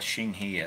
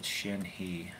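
First: Xinghe said with an "ng" in the middle; doubted pronunciation. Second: Shinhe said with a plain "n" in the middle; reported pronunciation. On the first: Shown as a demonstration. Streamer doubting how the brand is called, doubted pronunciation. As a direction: say Xinghe as "shing-hee". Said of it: "I don't think they call it". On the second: Retold or imitated. Streamer relaying how he said the brand, reported pronunciation. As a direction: say Shinhe slowly as "shin-hee". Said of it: "I think he said".

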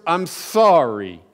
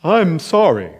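First: Slow, grudging, dragged-out sorry; reluctant apology. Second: Hammed-up heartfelt "I'm sorry"; fake sincere apology. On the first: Retold or imitated. Boy forced by his parents to apologize, grudging. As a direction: force out "I'm sorry" like it hurts. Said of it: "but I would say the words". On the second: Boy putting on an act for his mom, mock-sincere. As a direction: overact the sorry to sound sincere. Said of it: "I'd put on my best acting gig".

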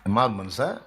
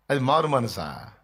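First: "మారు మనసా" with a sharp upturn on the last syllable; brief "మారు మనసా" swinging upward at the close; rising question. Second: Slow "మారు మనసా" with the tune falling at the end; drawn-out falling question. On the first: Same question put back to congregation. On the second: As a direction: stretch "మారు మనసా" and let it sink down. Mocking rhetorical question, first take. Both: Shown as a demonstration.

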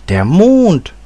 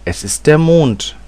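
First: High, loud cry of amazement; astonished exclamation. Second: Higher-pitched reveal at a normal pace; quick addition. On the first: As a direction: echo it back in astonishment, pitch soaring. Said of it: "rief Ursel". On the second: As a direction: add it promptly, lifting the pitch. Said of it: "setzte sie rasch hinzu". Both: A narrator's reading.

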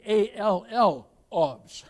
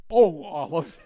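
First: "A L L olives" spoken as "all of", chuckling. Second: "O olives" said as the fruit, plain "oh-lives". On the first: Preacher explaining his pun to the congregation, laughing lightly. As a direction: stretch "A L L olives" into "all of", amused. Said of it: "I don't mean O olives". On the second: Preacher making a pun on "olives" to the church, plain. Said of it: "I mean A L L olives". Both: Shown as a demonstration.

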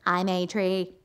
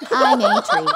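First: Stephen Hawking as a tree. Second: High, loud robotic tree voice; Stephen Hawking as a tree. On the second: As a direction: squeak it out in a stiff robot voice. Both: Acted. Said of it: "do a Stephen Hawking impression of a tree".

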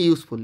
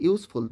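First: Said in the usual way. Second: ইউজফুল said as two parts, ইউজ and ফুল; teacher sounding out ইউজ-ফুল in two beats; split into syllables. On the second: Shown as a demonstration. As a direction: break ইউজফুল after ইউজ to show both syllables. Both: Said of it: "দুটো ভাবে উচ্চারণ করা যাচ্ছে".

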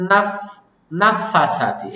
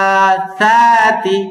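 First: নাফাসাতি with the stretch cut short; নাফাসাতি, stretch avoided; clipped madd mistake. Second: নাফাসাতি slow, ফ from teeth on lip; drawn-out নাফাসাতি with a clean ফ; নাফাসাতি, proper lip-teeth fa; correct fa. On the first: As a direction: rush নাফাসাতি without the madd. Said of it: "আমরা বলি". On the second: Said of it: "উপরে দাঁত নিচে ঠোঁট দিয়ে বলবো". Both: Shown as a demonstration.

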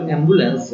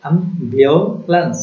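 First: অ্যাম্বুলেন্স said the everyday Bengali way, starting with an e sound, em-bu-lens; অ্যাম্বুলেন্স as Bengali speakers usually say it, em-bu-lens. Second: অ্যাম্বুলেন্স said slowly the English way, starting with an a sound, am-biu-lens; slow, careful English অ্যাম্বুলেন্স, am-biu-lens; English pronunciation. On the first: Teacher showing students the usual local pronunciation, অ্যাম্বুলেন্স as em-bu-lens. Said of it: "আসলে আমরা বলি". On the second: Teacher modelling the English sound for students, slow অ্যাম্বুলেন্স as am-biu-lens. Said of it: "English উচ্চারণ হলো".

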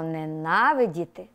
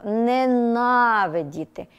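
First: Said in the usual way. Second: «ненавидіти» said slowly, each syllable clear, stress on the marked syllable. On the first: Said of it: "Давайте звернемо увагу на слово". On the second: Shown as a demonstration. Teacher models the stressed word for pupils, slow and careful. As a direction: draw out «ненавидіти» for the class to repeat. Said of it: "Вимовте, будь ласка, це слово".

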